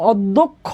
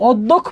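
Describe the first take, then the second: First: "অধ্যক্ষ" in full as "oddokkho", ending on o; final vowel sounded. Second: "অধ্যক্ষ" cut off as "oddokh", no closing o; final vowel dropped. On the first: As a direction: finish "অধ্যক্ষ" with an audible o after kkh. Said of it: "শব্দের শেষে একটা অ এর উচ্চারণ আছে". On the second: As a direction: stop "অধ্যক্ষ" dead on the kh. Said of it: "অধ্যক্ষ বলে থাইমা যায় না". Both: Shown as a demonstration.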